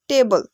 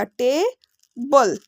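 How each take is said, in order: First: Said in the usual way. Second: टेबल very slowly in two beats, "TAY ... bul"; split into syllables. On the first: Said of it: "टेबल को पढ़ने में". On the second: Shown as a demonstration. Teacher counting jaw movements for learners, टेबल split slowly as "tay ... bul". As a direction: break टेबल after the long "tay", then "bul". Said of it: "दो बार हिला".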